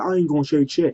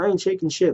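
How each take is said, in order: First: It sounds cocky and self-assured. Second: It sounds like a sulky, bratty child.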